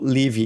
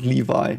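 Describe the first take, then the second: First: The name is pronounced the German way. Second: The name is pronounced a non-German way. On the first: The speaker calls it right. "Levi is the way we Germans pronounce it" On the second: The speaker calls it wrong. "not Levi"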